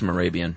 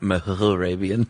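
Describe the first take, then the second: First: The H sound in the name is silent. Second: The H sound in the name is pronounced.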